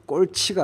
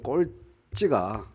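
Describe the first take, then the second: First: The second syllable starts with an aspirated 'ch'. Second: The second syllable starts with a tense 'jj'. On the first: The speaker calls it wrong. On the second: The speaker calls it right.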